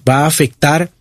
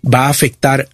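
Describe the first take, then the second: No difference in how they are said.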